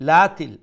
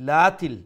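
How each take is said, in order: The two takes are said the same way.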